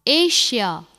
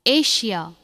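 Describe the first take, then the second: No difference in how they are said.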